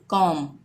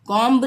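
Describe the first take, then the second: First: कॉम closing on m, no b; lower-pitched कॉम, ending on a hummed m; silent B. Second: कॉम्ब with a voiced b after the m; the mistaken कॉम्ब, b released at the end; pronounced B. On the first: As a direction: drop the b at the end of कॉम. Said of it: "हम इसको pronounce नहीं करेंगे". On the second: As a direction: sound the final b in कॉम्ब. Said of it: "कॉम्ब नहीं पढ़ेंगे". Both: Shown as a demonstration.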